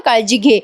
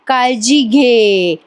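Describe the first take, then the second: First: Said in the usual way. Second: काळजी घे drawn out very slowly, each word savoured; moved, slowed quote. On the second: Retold or imitated. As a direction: repeat काळजी घे slowly, touched by it. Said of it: "असं बोललात ना?".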